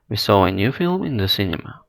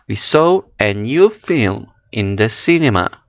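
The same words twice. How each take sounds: First: No words are stressed; the delivery is flat. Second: The key content words are clearly stressed. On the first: "без определенной интонации, не выделяя слова" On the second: "при произношении с ударением, выделением определенных слов"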